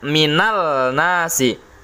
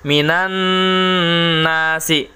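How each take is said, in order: First: The L is pronounced clearly before the N. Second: The L merges into a doubled N sound. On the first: The speaker calls it wrong. "Tidak dibaca minal nasi" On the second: The speaker calls it right. "Lihat contoh minan nasi"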